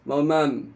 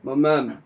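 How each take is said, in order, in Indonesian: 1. Bunyi k hilang dari kata makan. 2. Bunyi k hilang dari kata makan.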